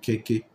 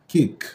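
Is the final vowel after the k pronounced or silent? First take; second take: pronounced; silent. First: An extra vowel is sounded after the k. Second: The word ends on the k sound. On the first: The speaker calls it wrong. "On ne peut pas dire keke. Non" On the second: The speaker calls it right. "la prononciation termine avec le consonne"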